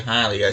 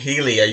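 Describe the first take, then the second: First: The first syllable sounds like 'high'. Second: The first syllable sounds like 'hee'. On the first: The speaker calls it right. "you say Hylia" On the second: The speaker calls it wrong. "you don't say Helia"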